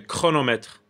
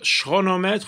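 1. Le mot commence par un son 'k'. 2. Le mot commence par un son 'sh'. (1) "ou bien ek" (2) "ou bien ch"

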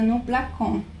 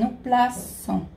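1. A consoante do meio é um 'k' forte. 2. A consoante do meio é um 's' suave. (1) "senão fica no placon. O placon não existe" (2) "então é no plaçon"

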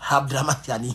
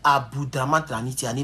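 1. Le nom est dit dans sa forme parlée habituelle. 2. Le nom est lu tel qu'il est écrit. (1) "mais on prononce ça Abdramane Tiani. Voilà, c'est comme ça qu'on prononce" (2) "c'est Abdramane Tiani"

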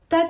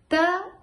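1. Произнесено быстро, одним потоком. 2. Произнесено по отдельным слогам. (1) "И теперь быстро" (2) "По слогам"

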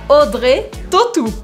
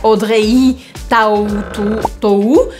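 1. Várias letras somem ou se juntam a outros sons. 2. As letras são pronunciadas como estão escritas. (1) "faz várias delas sumirem, virarem outras" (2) "a gente não pronuncia Audrey Tautou"

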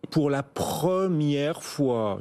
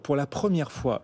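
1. La phrase est dite lentement et délibérément. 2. La phrase est dite à vitesse normale.

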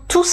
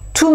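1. Le son S final est prononcé. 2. Le son S final est muet.

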